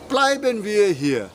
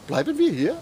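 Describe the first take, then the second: First: It is said with a suggesting tune. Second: It is said with a questioning tune. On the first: The speaker proposes that they stay here. "Let's stay here" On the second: The speaker asks whether they are staying here. "Are we staying here?"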